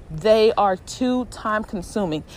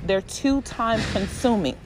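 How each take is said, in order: First: "They are" spelled out, each word weighted, slower; slow down and lean on "They are"; emphatic repeat. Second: Said in the usual way. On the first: Shown as a demonstration.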